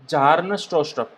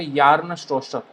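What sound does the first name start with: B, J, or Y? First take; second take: J; Y. First: The first name starts with a J sound. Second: The first name starts with a Y sound. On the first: "यहाँ पर आप बी को साइलेंट बोल सकते हो" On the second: "B और जे को कंबाइन करके य बोलते हैं"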